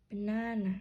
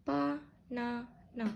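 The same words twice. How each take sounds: First: "Banana" with stress on the middle NA; one stronger syllable. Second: Slow "Ba-na-na", three even separate beats; all syllables equal. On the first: Teacher demonstrating word stress, "Banana" stronger on NA. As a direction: lean on the second syllable, ba-NA-na, in "Banana". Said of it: "One syllable is stronger". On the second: Teacher showing the mistaken way, "Ba-na-na" with equal stress. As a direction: give every syllable of "Ba-na-na" the same weight. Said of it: "pronounce all the syllables the same". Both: Shown as a demonstration.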